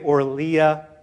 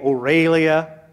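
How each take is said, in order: First: The name is said as Orlia. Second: The name is said as Aurelia. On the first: "Some people say Orlia" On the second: "Some people say Aurelia"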